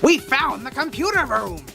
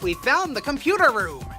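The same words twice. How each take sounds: First: It is said in a put-on character voice. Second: It is said in the speaker's ordinary voice.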